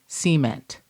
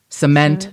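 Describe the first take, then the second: First: It is said in a Kentucky accent. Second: It is said in a standard accent. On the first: "one of my words when I moved here where people knew I was from Kentucky" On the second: "as opposed to"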